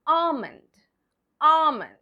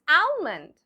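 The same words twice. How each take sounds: First: ALMOND as AH-mund, no L; silent L. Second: ALMOND with the L sounded, AL-mund; wrong pronunciation. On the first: Teacher modelling the correct word, ALMOND as AH-mund. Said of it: "The L over here is silent". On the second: Teacher posing as a mistaken learner, ALMOND wrongly said with an L. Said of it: "it's not almond". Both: Shown as a demonstration.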